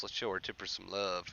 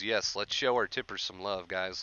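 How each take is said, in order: First: Repeated much softer, almost to himself; a softer second pass at the shout-out. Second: Said in the usual way. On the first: Real, not acted. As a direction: echo the line quietly under your breath.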